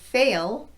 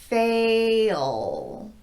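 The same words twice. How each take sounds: First: The word is said at normal speed. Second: The word is said slowly, drawn out.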